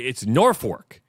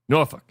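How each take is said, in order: First: It starts with 'north' and ends like 'fork'. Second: It starts with 'nor' and ends like 'fuck'. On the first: This is the Nebraska name. "where where are we getting the North?" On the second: This is the Virginia name. "I don't know how you get fuck out of F O L K"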